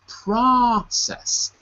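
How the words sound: The first vowel sounds like 'ah'. "In American English, it's process"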